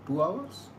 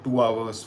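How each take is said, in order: First: "Two hours" rising high at the end; questioning. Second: Said in the usual way. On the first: Real, not acted. Streamer doubting own train-time estimate, "Two hours" as a rising question.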